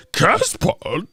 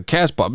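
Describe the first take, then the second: First: High, slow silly voice; exaggerated mimicry, pitched up; mocking imitation. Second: Said in the usual way. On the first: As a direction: drag out the garbled word incredulously. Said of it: "That motherfucker said". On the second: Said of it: "You mean podcast?".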